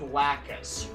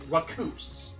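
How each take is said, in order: First: The name begins with a clear L sound. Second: The name begins with an R-like sound. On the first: The speaker calls it right. "which is pronounced with the L" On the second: The speaker calls it wrong. "but they pronounce it Raccoose"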